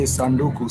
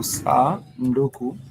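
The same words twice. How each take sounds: First: Said in the usual way. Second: Sanduku stretched, with sa held apart from nduku; drawn-out teaching sanduku; slowly sounded out. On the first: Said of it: "you could say". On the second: Shown as a demonstration. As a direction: break sanduku slowly after a long sa. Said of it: "has three syllables".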